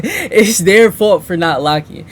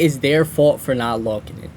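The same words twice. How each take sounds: First: "locking" with an open, unrounded vowel, louder; repeated "locking". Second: "locking" drawn toward "lawking", low-key; lower-pitched line with "lawking" for "locking"; odd-sounding "locking". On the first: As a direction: say "locking" open, more like "lacking". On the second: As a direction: say "locking" with a rounded aw vowel. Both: Real, not acted. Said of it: "why did I say it like that".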